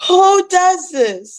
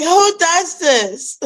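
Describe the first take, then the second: First: Milk the disbelief, even bigger; stretched-out incredulous wail; exaggerated outrage. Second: High, slow, incredulous cry; high drawn-out who does this; mock outrage. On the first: Repeats outrage line. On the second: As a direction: throw up your hands at the sky. Retelling own outrage at rain.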